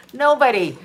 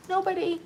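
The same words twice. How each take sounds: First: NOBODY said firmly at full voice; emphatic. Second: Soft, high, small-voiced "Nobody"; hushed repeat. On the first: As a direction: hit "Nobody" firmly, pitch falling at the end. Repeats the word for emphasis. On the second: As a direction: let "Nobody" shrink to a light, high hush. Repeats the word, dropping away. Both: Real, not acted.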